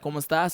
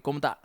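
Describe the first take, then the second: First: The final s is pronounced clearly. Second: The final s is dropped, Puerto Rican style.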